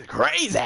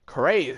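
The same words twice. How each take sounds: First: Crazy whispered high and breathless. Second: Said in the usual way. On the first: Pretend. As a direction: hiss out Crazy with a falling tone. Playful repetition of crazy.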